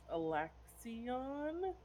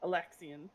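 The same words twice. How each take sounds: First: Alexion drawn out, ending in a full "on", rising; unsure name pronunciation. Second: Alexion with a reduced "ən" ending; corrected name pronunciation. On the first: Player recalling an imprisoned man's name, Alexion stretched out unsurely. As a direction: sound out Alexion slowly with a questioning lift. Tries name, then echoes correction. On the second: Player echoing a correction, Alexion ending in a light "un". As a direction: say Alexion briskly, last syllable unstressed like "un". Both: Real, not acted.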